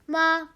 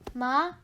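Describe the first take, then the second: First: The pitch stays level throughout. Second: The pitch rises throughout. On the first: "One goes straight" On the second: "one goes up"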